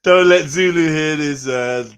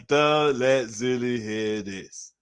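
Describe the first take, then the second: First: Loud mock warning; half-joking loud call. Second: Slow, drawn-out repeat. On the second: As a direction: drag it out slowly. Repeated slowly. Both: Real, not acted.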